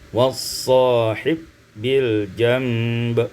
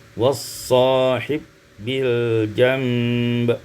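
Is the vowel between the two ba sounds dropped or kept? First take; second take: dropped; dropped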